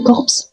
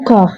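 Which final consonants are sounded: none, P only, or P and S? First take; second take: P and S; none. First: The final p and s are both pronounced. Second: No final consonant is pronounced. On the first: The speaker calls it wrong. "ne dites jamais corpse" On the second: The speaker calls it right. "Les lettres P et S à la fin sont totalement muettes"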